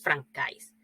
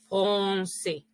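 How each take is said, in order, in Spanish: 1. La c se pronuncia con un sonido K fuerte. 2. La c se pronuncia con un sonido S suave. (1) "aquí no dice fran francais, porque todos lo leemos francais" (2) "Esta C cedilla se pronuncia como S"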